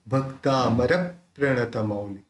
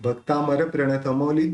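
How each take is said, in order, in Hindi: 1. संयुक्त अक्षर से पहले एक छोटा विराम आता है। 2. यह वाक्यांश बिना रुके बोला जाता है। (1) "यहाँ पे पॉज बनता है" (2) "सलंग बोलेंगे"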